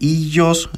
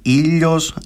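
First: It is said with a Y-like fricative sound. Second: It is said with a clear L sound. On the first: "με γάμμα" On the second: "με λάμδα"

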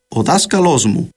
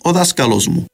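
First: The noun has stresses on two different syllables. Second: The noun has only one stress, on the first syllable. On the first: This is the Standard Modern Greek pronunciation. "με τόνο στην προπαραλίγουσα αλλά και στην λίγουσα" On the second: This is the Cypriot pronunciation. "προφέρεται χωρίς τον δεύτερον τόνο"

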